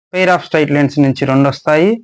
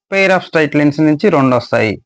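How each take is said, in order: No difference in how they are said.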